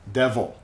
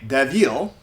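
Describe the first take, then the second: First: Devil with a reduced last syllable, DEV-ul; schwa. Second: Devil with a clear EE in the last syllable, DEV-eel; full I vowel. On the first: Teacher gives learners the natural form, devil as DEV-ul. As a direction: swallow the i of devil into UH. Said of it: "we say devil". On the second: Teacher shows learners what not to say, devil as DEV-eel. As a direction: overpronounce the i of devil as EE. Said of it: "We don't say devil". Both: Shown as a demonstration.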